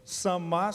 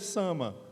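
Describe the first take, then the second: First: The stress is on the last syllable. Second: The stress is on the first syllable. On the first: The speaker calls it wrong. "se tivesse acento no último A" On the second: The speaker calls it right. "a pronúncia correta aqui no português é Sama"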